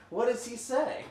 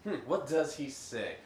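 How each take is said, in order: First: What does he say asked much higher and louder, rising; high mock whine. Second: Said in the usual way. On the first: Real, not acted. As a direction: squeak the question up like a stalling GM. GM repeats question, mock whine.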